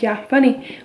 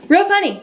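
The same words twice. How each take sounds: First: Said in the usual way. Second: Dry sarcastic jab, pitched higher; mock amused, eye-rolling. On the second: Joking about pregnancy in group chat.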